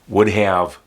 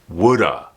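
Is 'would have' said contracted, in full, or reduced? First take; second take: full; reduced. First: Both words are said fully and separately. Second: It is quickly reduced to woulda.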